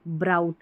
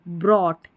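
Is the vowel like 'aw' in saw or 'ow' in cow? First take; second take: ow; aw. First: The vowel sounds like 'ow' in cow. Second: The vowel sounds like 'aw' in saw. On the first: The speaker calls it wrong. "ये ब्राउट गलत उच्चारण है" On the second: The speaker calls it right. "इसको ब्रॉट पढ़ेंगे"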